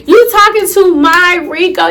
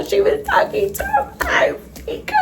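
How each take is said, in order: First: Acted disbelief, demanding an answer; incredulous confrontation. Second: High, thin squeal fading out; mock wailing. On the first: Confronting cousin for talking to her ex, incredulous. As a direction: confront her as if you can't believe it. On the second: Telling viewers her cousin was calling her ex, mock wail. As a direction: voice gives out in hammed-up heartbreak.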